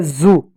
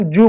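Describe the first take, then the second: First: जू pronounced "zoo"; जू with z, not j; z sound. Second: जू pronounced "joo"; जू with j, not z; j sound. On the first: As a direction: open जू with a buzzing z. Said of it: "जिसके spelling ज़ेड double O". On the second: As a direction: keep जू on a clean j. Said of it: "उसको हम जू बोलते हैं". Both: Shown as a demonstration.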